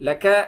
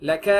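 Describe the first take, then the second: No difference in how they are said.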